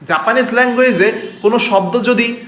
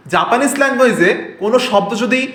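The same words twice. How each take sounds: The two takes are said the same way.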